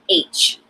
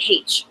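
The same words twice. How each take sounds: First: It is said American style, as aitch. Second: It is said Irish style, as haitch.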